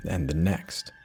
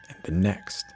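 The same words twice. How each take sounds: The two takes are said the same way.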